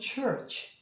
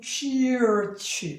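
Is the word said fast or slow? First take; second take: fast; slow. First: The word is said quickly. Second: The word is said slowly and carefully. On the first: "빨리 하면" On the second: "정확한 발음은"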